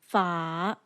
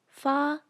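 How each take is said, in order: First: The pitch falls and then rises. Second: The pitch stays level throughout. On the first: "falls and then rises" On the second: "maintains its pitch from start to finish"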